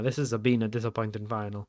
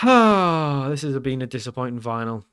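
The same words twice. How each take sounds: First: Softer repeat in mild Italian-accented English. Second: Sighed line with an Italian lilt; unintended Italian accent. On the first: Shown as a demonstration. Player echoing his own slip, mild Italian accent. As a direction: lightly mimic your own Italian-sounding slip. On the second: Real, not acted. Player sighing over the cup final, slightly Italian-sounding. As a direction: sigh it out, slipping into slightly Italian English. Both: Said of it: "I sounded quite Italian there".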